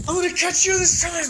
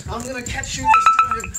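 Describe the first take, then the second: First: Much higher, loud teasing sing-song; squealy playful chase. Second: Loud teasing threat to the dog; playful chase. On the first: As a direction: squeal it at the dog like a game. Playfully chasing the dog. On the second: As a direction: growl it out as a playful game. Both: Real, not acted.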